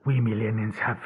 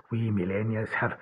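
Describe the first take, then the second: No difference in how they are said.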